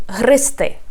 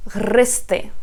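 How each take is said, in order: Both takes have the same delivery.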